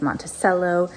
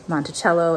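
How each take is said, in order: First: It is said the local Illinois way. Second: It is said the commonly expected way. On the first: "and it's Monticello" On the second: "You would expect um, Monticello to be pronounced Monticello"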